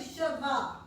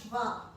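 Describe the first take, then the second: First: A full vowel is heard between sh and v. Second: It is said fast, with no vowel between sh and v. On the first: "it's really shava" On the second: "you say it fast, so it'll sound shva"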